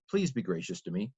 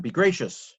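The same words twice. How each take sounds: First: Polite request. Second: Commanding. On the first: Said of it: "it's a request". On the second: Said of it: "but it's a command". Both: Shown as a demonstration.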